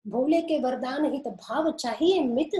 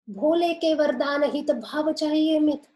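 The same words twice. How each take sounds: First: The verse turned into a sceptical question; mildly incredulous questioning re-reading; listener's doubting reading. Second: Higher, loud recitation falling at the end; speaker's statement. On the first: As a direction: ask it back with doubt on चाहिए. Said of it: "ऐसे कैसे कह रही हो?". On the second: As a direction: declare the verse as a plain statement. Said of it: "वक्ता ने तो कहा है". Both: Shown as a demonstration.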